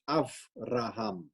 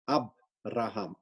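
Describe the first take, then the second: First: The second consonant is a soft V sound. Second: The second consonant is a hard B sound. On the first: The speaker calls it right. "it actually should be pronounced as Avraham" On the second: The speaker calls it wrong. "and not Abraham"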